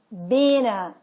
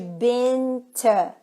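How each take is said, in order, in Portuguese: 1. O t some e as palavras se juntam. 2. O t é pronunciado claramente, como palavras separadas. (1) "esse T pode desaparecer e tudo isso junta num som de N" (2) "Ao invés de been to"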